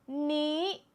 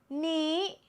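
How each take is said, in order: First: The pitch stays high across the word. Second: The pitch stays high across the word.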